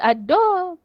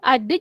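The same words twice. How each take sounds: First: It is said in Kelantan dialect pronunciation. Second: It is said in standard Malay pronunciation.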